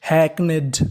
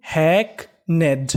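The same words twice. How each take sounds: First: Said in the usual way. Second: hackneyed slowly split into "hack" and "ned"; syllable by syllable. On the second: Shown as a demonstration. Teacher assembling hackneyed for students, slowly in two parts. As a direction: leave a gap inside hackneyed, each half drawn out. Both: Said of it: "तो meaning बनी".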